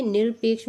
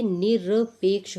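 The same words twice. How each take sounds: First: निरपेक्ष with r run straight into p; the mistaken half r in निरपेक्ष; half-r demo. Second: निरपेक्ष broken into "ni-ra-peksh"; निरपेक्ष with a vowel after the r; full-r demo. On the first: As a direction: say निरपेक्ष as "nir-peksh", no vowel after r. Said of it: "आधी रा नहीं निकलती है". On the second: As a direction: sound a full ra in निरपेक्ष, syllable by syllable. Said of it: "ये निरपेक्ष होता है". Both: Shown as a demonstration.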